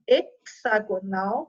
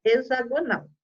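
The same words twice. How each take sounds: First: "hexagonal" with X said as KS. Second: "hexagonal" with X voiced as Z. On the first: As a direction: say "hexagonal" as ek-sa-go-NAL. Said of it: "ou de X". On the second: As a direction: say "hexagonal" as e-za-go-NAL. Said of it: "de Z". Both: Shown as a demonstration.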